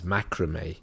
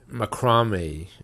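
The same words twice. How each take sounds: First: The stress falls as in American speech. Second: The stress falls as in British speech.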